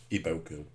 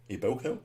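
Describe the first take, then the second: First: Said in the usual way. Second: Iboko with a rising, unsure tune; unsure Iboko, rising at the end; questioning name. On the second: Real, not acted.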